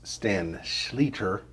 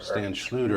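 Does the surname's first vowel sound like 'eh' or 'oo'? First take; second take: eh; oo. First: The surname's first vowel sounds like 'eh'. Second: The surname's first vowel sounds like 'oo'. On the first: The speaker calls it right. "we've been corrected um, that it's Stan Schleter" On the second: The speaker calls it wrong. "Very commonly mispronounced as Stan Schluter"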